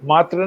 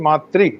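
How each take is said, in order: First: The word ends with a plain 'tra' sound. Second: The word ends with a 'tri' sound. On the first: The speaker calls it wrong. "बड़ा गलत बोलते थे" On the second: The speaker calls it right. "मातृ री है"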